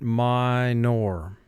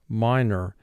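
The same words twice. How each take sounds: First: The second syllable is fully pronounced as 'nor'. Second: The second syllable has a reduced, weak vowel.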